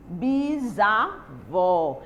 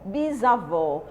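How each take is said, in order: First: "bisavó" very slow, broken into pieces with gaps; syllable by syllable. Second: Said in the usual way. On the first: Shown as a demonstration. Teacher shows pupils the prefix in bisavó, syllable by syllable. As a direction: split "bisavó" slowly, lower pitched.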